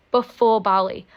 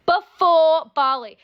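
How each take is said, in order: First: Said in the usual way. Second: Before Bali slowly, loud and higher, weight on Before; emphatic disbelieving echo. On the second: Real, not acted. Echoing his confession to viewers, slow and loud on Before. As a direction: drag out "Before Bali" in outrage, punching Before.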